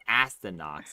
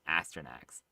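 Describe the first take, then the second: First: The last syllable is said as 'nox'. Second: The last syllable is said as 'nax'. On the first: The speaker calls it wrong. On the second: The speaker calls it right.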